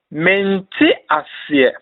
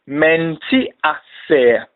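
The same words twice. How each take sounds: First: Said in the usual way. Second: "menti aseɛ" slowly, part by part: men-ti a-se; slow pronunciation demo. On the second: Shown as a demonstration. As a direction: model "menti aseɛ" with drawn-out syllables for learners.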